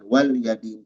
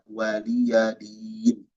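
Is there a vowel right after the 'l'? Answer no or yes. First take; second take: no; yes. First: The l is closed with no vowel after it. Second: The l is followed by a short i vowel. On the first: The speaker calls it wrong. "jangan wal yadin" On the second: The speaker calls it right. "tapi waliya waliya din"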